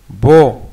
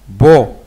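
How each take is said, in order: Both takes have the same delivery.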